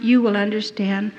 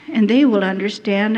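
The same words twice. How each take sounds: First: YOU picked out, addressed to the listener; stress on YOU. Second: THEY leaned on, then the rest even; stress on THEY. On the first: Prisoner confiding in Mister Yamaji, stress on YOU. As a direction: put the weight on "you". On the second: Prisoner reassuring the camp officer about the women, stress on THEY. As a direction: put the weight on "they". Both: Retold or imitated.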